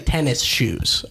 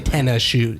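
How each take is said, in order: First: It is said clearly as 'tennis shoes'. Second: It is said reduced, like 'ten of shoe'. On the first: "I don't say tennis shoes" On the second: "I say tennis shoe. Tenna. Ten of shoes"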